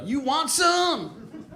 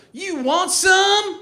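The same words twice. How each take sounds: First: Very slow, high-pitched taunt; professional wrestler. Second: Slow, high, loud wrestler taunt; professional wrestler. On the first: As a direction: stretch it out like a hammed-up wrestler. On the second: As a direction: challenge like a hammed-up pro wrestler. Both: Acted. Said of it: "Like a professional wrestler".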